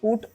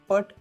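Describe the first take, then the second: First: The vowel is a short rounded 'oo' sound. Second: The vowel is an open unrounded 'uh' sound. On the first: The speaker calls it right. "याला पुट असं म्हणायचं" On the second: The speaker calls it wrong. "पट असं म्हणायचं नाही"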